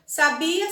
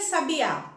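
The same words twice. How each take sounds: First: "sabia" with the weight on the middle syllable BI; stress on BI. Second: "sabiá" with the weight on the last syllable; stress on final Á. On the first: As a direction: lean on BI in "sabia". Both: Shown as a demonstration. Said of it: "aquilo que as diferenciam são acentos".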